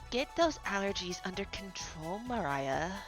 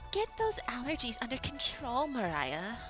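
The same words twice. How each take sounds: First: The character voice is lower in pitch. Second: The character voice is higher in pitch. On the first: The speaker calls it wrong. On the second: The speaker calls it right.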